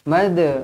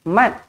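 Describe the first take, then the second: First: The final consonant is released with a bounce. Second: The final consonant is held without a bounce. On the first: The speaker calls it right. "Kita nak mad, mad, lantunkan" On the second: The speaker calls it wrong. "tak nak mat"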